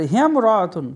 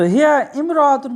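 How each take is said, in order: First: হিয়াম রাআতুন with the mim joined to হিয়া and the alif silent; joined reading. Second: হিয়া ইমরাআতুন with the alif sounded, words kept apart; separate reading. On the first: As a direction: run it together as হিয়াম রাআতুন. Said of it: "ইয়ার সাথে মিম direct যোগ করে পড়তে হবে". (হিয়াম রাআতুন, মিম যুক্ত করে, আলিফ বাদ দিয়ে) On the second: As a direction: say হিয়া then a full ইমরাআতুন. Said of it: "এখানে লেখা নাই". (হিয়া ইমরাআতুন আলাদা করে, আলিফ উচ্চারণ করে) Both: Shown as a demonstration.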